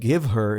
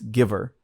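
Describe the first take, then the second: First: The h in her is pronounced separately. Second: The h is dropped, words run together. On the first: "Instead of give her" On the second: "the reporter drops the H there from the word her"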